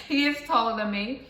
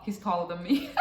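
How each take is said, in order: First: "is" punched, a little higher and louder; "is" in full, stressed and raised. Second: Said in the usual way. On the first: Real, not acted. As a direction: lean on "is" to confirm it emphatically. Repeats the line for emphasis.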